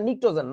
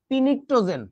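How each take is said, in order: First: The word begins with an n sound. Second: The word begins with a p sound. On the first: The speaker calls it right. "এটাকে বলে নিক্টোজেন" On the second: The speaker calls it wrong. "এইটা দেইখা তুমি উচ্চারণ করবা কি জানো?"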